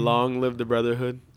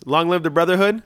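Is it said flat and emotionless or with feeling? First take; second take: flat; with feeling. First: It is said flat, with no emotion. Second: It is said with some feeling.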